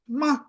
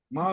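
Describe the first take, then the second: First: The syllable is said at a higher pitch. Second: The syllable is said at a lower pitch.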